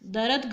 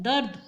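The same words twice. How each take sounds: First: दर्द split into two syllables, "da-rat"; mispronounced दर्द. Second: दर्द in one syllable, "dard"; correct दर्द. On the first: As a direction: put an extra vowel after र in दर्द. (दर्द को तोड़कर "दरद" बोलना) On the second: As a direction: join र tightly to द in दर्द. (दर्द को एक साथ "दर्द" बोलना) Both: Shown as a demonstration. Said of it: "गलत होता है".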